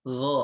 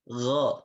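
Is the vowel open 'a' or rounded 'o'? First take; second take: open a; open a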